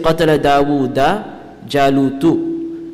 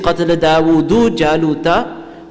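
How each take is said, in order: First: Jalut ends in u, Dawud ends in a. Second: Dawud ends in u, Jalut ends in a. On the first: Goliath killed David. "the word Jalut has a dhamma at the end" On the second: David killed Goliath. "instead of saying"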